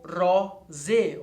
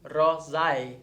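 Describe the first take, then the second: First: The word ends in a single plain vowel. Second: The word ends in an ae diphthong.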